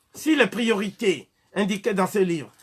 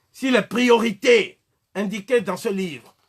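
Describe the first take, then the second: Both takes have the same delivery.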